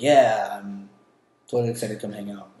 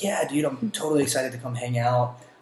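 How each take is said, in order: First: It sounds flat, unenthusiastic and insincere. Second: It sounds genuinely excited and upbeat.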